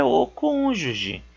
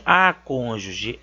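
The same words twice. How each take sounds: First: Slow, with "o" held before cônjuge; stress on right article. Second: The article "a" set apart before cônjuge; stress on wrong article. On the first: Teacher correcting a common mistake, stressed article. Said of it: "é o cônjuge". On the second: Teacher showing a common gender mistake, stressed article. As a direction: lean on "a" in "a cônjuge". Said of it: "A palavra não tem a cônjuge". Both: Shown as a demonstration.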